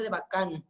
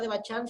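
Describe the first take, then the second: First: The middle consonant is a 'k' sound. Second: The middle consonant is a 'ch' sound. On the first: The speaker calls it right. "se pronuncia de Bacán" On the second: The speaker calls it wrong. "la palabra de Bachán"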